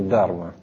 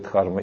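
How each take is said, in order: First: No h sound is heard after the d. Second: An h sound is heard after the d. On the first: "хэ там так говорится, что почти не слышно" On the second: "Слышали, что такое дхарма?"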